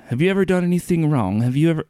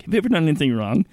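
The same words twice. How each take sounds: First: Loose New Zealand street preacher impression; New Zealand accent. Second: Fast, higher earnest question in a light evangelist voice. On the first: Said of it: "that's my flawless New Zealand accent". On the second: Retold or imitated. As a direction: rattle it off like an eager evangelist. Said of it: "Mike Seaver ... walks up to you and is like".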